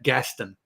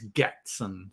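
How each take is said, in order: First: The S sound comes before the T. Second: The T sound comes before the S. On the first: The speaker calls it wrong. "my impulse is to pronounce that Gaston" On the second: The speaker calls it right. "The name is Gatson"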